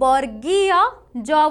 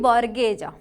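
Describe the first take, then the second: First: Each syllable is said fully and carefully. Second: The syllables are rushed and merged together. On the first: The speaker calls it right. "ताकू वर्गीय ज बोली कहा जाए" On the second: The speaker calls it wrong. "जल्दी जल्दी pronounce करू माने अशुद्ध उच्चारण"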